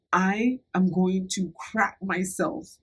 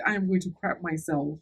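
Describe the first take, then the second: First: Slow, drawn-out urgent warning. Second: Said in the usual way. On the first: Retold or imitated. Telling her friend she is about to have an accident, slow and urgent. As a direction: spell it out slowly, each word weighted. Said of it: "I didn't say crap". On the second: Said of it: "As soon as I said".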